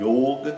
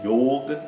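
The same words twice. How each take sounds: First: The o vowel is closed. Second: The o vowel is closed.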